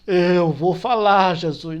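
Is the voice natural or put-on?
put-on. It is said in an affected preacher's voice.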